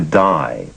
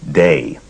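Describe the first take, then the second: First: The vowel rhymes with 'sky'. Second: The vowel rhymes with 'say'. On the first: This is how California friends said it. "the pronunciation shifted to Die" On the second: This is how New York friends said it. "pronounced his first name Day"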